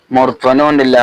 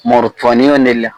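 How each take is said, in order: Both takes have the same delivery.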